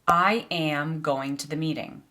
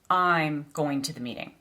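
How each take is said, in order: First: I am is said as two full words. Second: I am is contracted to one syllable. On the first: The speaker calls it wrong. "it just doesn't really sound natural" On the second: The speaker calls it right. "A native speaker would say"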